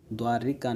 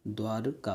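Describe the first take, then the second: First: द्वारिका said with a clear इ after र; द्वारिका voiced as the wrong form; wrong spelling said. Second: द्वारका said without the इ, slowly; the right form द्वारका, drawn out; correct form said. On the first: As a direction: stress the extra इ in द्वारिका. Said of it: "द्वारिका नहीं होता". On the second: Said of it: "द्वारका होता है". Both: Shown as a demonstration.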